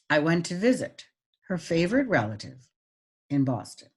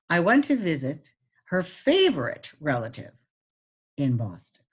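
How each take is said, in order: First: It is read with pauses but little pitch change. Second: It is read with pauses and marked pitch changes. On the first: "Now the pauses" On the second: "And now I'm going to add pitch"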